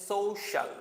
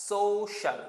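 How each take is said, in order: Both takes have the same delivery.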